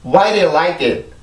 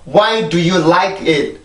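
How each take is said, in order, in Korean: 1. 기능어를 가볍게 발음해서 빠르게 말해요. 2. 모든 단어를 또박또박 다 발음해서 천천히 말해요.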